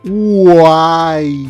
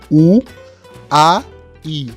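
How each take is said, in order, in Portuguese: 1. As vogais são ditas juntas, sem pausas. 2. As vogais são ditas separadamente, com pausas entre elas.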